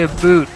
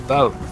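First: The second vowel sounds like the one in boot. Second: The second vowel sounds like the one in out. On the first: This is how others hear a Canadian say it. "you say a boot" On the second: This is how the speaker actually says it. "I say about"

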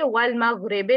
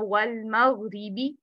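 First: The word ends in a soft 'eh' vowel. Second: The word ends in a sharp 'ee' vowel. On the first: The speaker calls it wrong. "वल मगरिबे नहीं पढ़ना" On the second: The speaker calls it right. "इसको भी शार्प रखना है"

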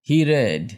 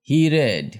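No difference in how they are said.

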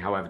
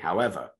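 First: It runs straight on with no pause after. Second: It is followed by a long dramatic pause. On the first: The speaker calls it wrong. "There's no point in saying" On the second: The speaker calls it right. "let it sink, slightly Shakespearean pause"

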